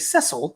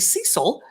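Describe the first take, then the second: First: The name is said the British way. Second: The name is said the American way.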